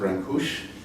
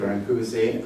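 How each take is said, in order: First: The name has a Romanian-style pronunciation. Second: The name has an English-style pronunciation. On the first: "I'm told by those who speak Romanian better than I do, ... that you pronounce it" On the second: "but let's do"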